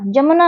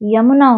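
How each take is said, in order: First: The word begins with a j sound. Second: The word begins with a y sound. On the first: The speaker calls it wrong. "जमुना नहीं होता भाई" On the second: The speaker calls it right. "यमुना होता है"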